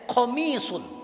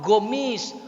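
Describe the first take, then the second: First: The word begins with a k-like sound. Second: The word begins with a g sound. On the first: This is the original Arabic form. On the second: This is how Saudis say it. "Orang Saudi nggak bisa pakai kof"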